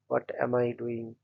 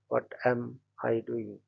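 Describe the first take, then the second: First: The word 'what' is stressed. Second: The word 'am' is stressed.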